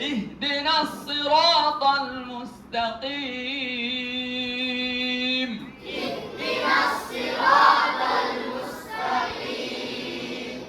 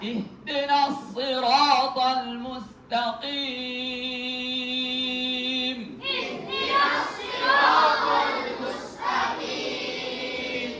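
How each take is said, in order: Both takes have the same delivery.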